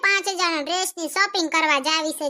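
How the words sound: It is said in a snobbish, showing-off way. The speaker is showing off their wealth. "વાયડાઈમાં બોલશે"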